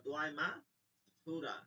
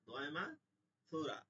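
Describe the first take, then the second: Both takes have the same delivery.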